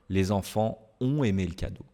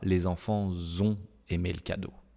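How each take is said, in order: First: Enfants and ont are not linked by z. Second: A z sound links enfants to ont. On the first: The speaker calls it right. "il n'y a pas de liaison" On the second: The speaker calls it wrong. "Je ne dis pas"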